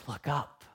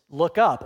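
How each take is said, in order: First: Tender. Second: Firm, louder command; a loud command, not a request. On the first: Acted. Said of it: "with all of the warmth and compassion and love". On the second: Shown as a demonstration. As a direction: order him to look up. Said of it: "And the command is".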